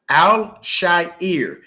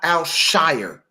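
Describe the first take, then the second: First: The last syllable rhymes with hair. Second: The last syllable rhymes with fire. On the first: The speaker calls it right. "that is his name" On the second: The speaker calls it wrong. "not Al Shire"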